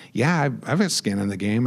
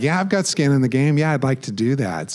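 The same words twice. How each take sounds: First: Said in the usual way. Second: Laughing while repeating it, a bit louder and higher; laughing at himself, louder. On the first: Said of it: "I couldn't think of anything more intelligent to say". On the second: Retold or imitated. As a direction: chuckle through the repeat of your own reply.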